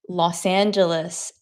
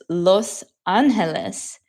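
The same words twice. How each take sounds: First: The name is said with an American pronunciation. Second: The name is said with a Spanish pronunciation. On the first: This is how Americans usually say it. The speaker calls it wrong. "how Americans say" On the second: This is the original Spanish form. The speaker calls it right. "how it's actually supposed to sound"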